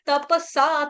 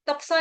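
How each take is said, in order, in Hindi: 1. p के बाद का स्वर पूरा बोला जाता है। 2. p के बाद का स्वर छोड़ा जाता है। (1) "त पूरा प पूरा सा" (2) "तपसा नहीं बोलेंगे"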